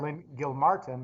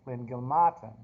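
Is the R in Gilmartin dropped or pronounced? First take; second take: pronounced; dropped. First: The R in Gilmartin is pronounced. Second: The R in Gilmartin is dropped. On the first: "you are Lynn Gilmartin" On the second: "you pronounce it G- Lynn Gilmartin"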